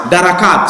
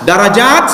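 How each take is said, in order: First: "darakat" with k instead of j, dropping; darakat, downward grade. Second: "Darajat" spoken with j and a lift at the end; darajat, upward grade. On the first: Preacher contrasting darakat with Darajat for the congregation, falling hard k. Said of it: "darakat semakin". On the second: Preacher contrasting Darajat with darakat for the congregation, clear rising j. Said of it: "Darajat itu ke atas". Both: Shown as a demonstration.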